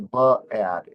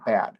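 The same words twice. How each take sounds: First: An extra schwa vowel follows the b sound. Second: The b joins the vowel with no extra schwa. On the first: The speaker calls it wrong. "they will say bad" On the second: The speaker calls it right. "instead of bad"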